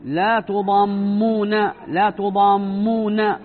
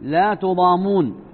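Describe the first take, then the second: First: تضامون with the meem doubled and held, slow; with shadda. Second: تضامون with a single short meem, slow; light meem. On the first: Teacher to students showing the shadda reading, doubled meem. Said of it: "بالتشديد". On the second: Teacher to students showing the reading without shadda. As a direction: say تضامون as tudamun, no doubling. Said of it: "بتخفيف الميم". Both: Shown as a demonstration.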